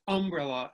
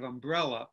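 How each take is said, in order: First: UMbrella, stressed on the first syllable. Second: Said in the usual way. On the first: Shown as a demonstration. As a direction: hit the UM of umbrella. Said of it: "where you put the stress". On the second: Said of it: "instead of umbrella".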